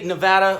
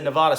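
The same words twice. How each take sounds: First: It is said the way Nevada locals say it. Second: It is said the way most outsiders say it. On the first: "us Nevadans, that's how we would pronounce it" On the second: "everybody else and the rest of the world pronounces it"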